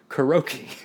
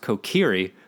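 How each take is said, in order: First: The name is pronounced Ku-ro-ki. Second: The name is pronounced Ko-ki-ri. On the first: The speaker calls it wrong. "but I pronounced it Kuroki" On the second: The speaker calls it right. "It's actually pronounced Kokiri"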